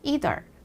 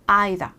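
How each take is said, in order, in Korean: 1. 미국식 억양으로 말한 거예요. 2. 영국식 억양으로 말한 거예요. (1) "이런 미국 발음" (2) "이런 영국 발음"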